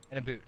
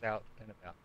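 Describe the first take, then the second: First: "a boot" for "about", vowel as oo; mock Canadian vowel. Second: Said in the usual way. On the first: Storyteller teasing his Canadian friend, "about" said as "a boot".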